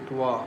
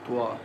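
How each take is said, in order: First: The lips are rounded on the sound. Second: The lips are rounded on the sound.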